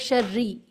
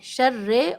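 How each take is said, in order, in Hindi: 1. अंतिम स्वर 'ee' की आवाज़ है। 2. अंतिम स्वर एक लंबी 'ay' आवाज़ है। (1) "ज़ेर की आवाज़ को ई साउंड के साथ पढ़ना है" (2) "शर्रे भी पढ़ते हैं बहुत से लोग, विच इज़ मजहूल, और जिसकी इजाज़त नहीं है।"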